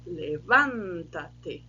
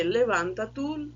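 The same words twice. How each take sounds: First: "levanta-te" very slow, stress on the "van"; slow stressed demo. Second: Said in the usual way. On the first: Shown as a demonstration. Teacher showing students how "levanta-te" changes its sound. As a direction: stretch "levanta-te" so the paroxytone stress on "van" is clear. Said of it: "mudou ali a, o tom". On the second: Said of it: "Eu conjugo os verbos do mesmo jeito".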